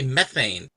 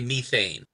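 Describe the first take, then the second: First: It is said with a North American pronunciation. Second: It is said with a British pronunciation. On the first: "we say methane" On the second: "the British say methane"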